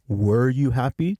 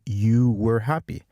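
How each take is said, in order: First: "were you happy" lifted as a question; question tune. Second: "you were happy" slow, as a statement; statement tune. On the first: Teacher shows the change from question to statement, questioning tune. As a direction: ask it, keeping "happy" up. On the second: Teacher shows the change from question to statement, slow statement tune. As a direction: state it slowly, closing on "happy". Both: Shown as a demonstration. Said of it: "Notice how it changes from".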